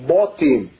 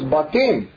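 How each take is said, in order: First: The first vowel is a rounded 'o' sound. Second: The first vowel is an open 'a' sound. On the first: This is the pronunciation of another old tradition. "they argued it should be Botim" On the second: This is the modern Hebrew pronunciation. "in modern Hebrew it's Batim"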